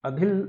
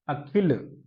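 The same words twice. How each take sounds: First: अधिल with a breathy "dh" in the middle; misprinted reading. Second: अखिल with an aspirated "kh"; corrected reading. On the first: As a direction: read अधिल as misprinted, "a-dhil". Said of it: "थोड़ा सा mistake हो रहा है". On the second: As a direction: read अखिल as "a-khil". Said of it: "अखिल लिखा है बच्चों". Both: Shown as a demonstration.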